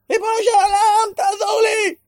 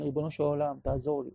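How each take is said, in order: First: A high, loud cry for help; desperate cry. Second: Softly asking for help; quiet plea. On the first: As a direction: shout it up to God, desperate. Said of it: "מה זה נקרא". (צעקה נואשת וחזקה כלפי שמיים) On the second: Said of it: "מה ההבדל בין". (בקשה שקטה ורגועה) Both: Shown as a demonstration.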